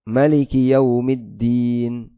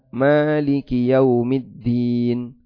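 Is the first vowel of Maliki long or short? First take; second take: short; long. First: The first vowel of Maliki is kept short. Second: The first vowel of Maliki is held long. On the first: It means king. "juga bisa dibaca pendek" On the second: It means the one who rules and owns. "bisa dibaca panjang"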